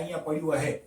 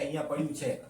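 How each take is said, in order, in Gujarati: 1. છેલ્લો શબ્દ 'h' અવાજથી શરૂ થાય છે. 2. છેલ્લો શબ્દ 'ch' અવાજથી શરૂ થાય છે. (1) "તો એવું બોલે છે કે" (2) "આપણે એવું કહીએ ને કે"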